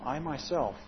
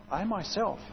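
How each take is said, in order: First: Said in the usual way. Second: "myself" hit higher and firm; stress on myself. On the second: Shown as a demonstration. Preacher showing Christ's deliberate emphasis, stress on "myself". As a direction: lean hard into "myself". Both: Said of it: "very intentional emphasis".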